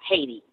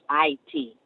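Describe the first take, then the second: First: The name is said with an initial h sound. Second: The name is said without an initial h sound. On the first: This is the common outside pronunciation. "it's very far from uh, Haiti" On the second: This is how native Haitians say it. "It's actually pronounced I T, something like that"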